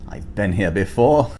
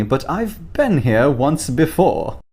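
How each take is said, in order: First: Said in the usual way. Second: Put-on English accent. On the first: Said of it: "repeats quote differently". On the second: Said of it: "English accent".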